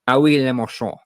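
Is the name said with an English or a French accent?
French. The name is said with French pronunciation.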